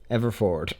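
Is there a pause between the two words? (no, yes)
no. The two words run together without a pause. The speaker calls it right. "There you go"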